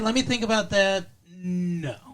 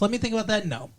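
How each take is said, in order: First: There is a pause before "no." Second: There is no pause before "no."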